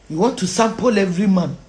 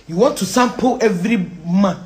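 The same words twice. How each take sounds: The two takes are said the same way.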